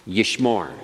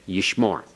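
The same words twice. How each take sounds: No difference in how they are said.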